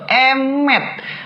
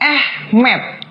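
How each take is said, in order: First: It starts with 'eh' and ends in 'met'. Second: It starts with 'ah' and ends in 'med'. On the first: The speaker calls it right. "tapi Emet" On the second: The speaker calls it wrong. "Ini bacanya bukan Ahmed"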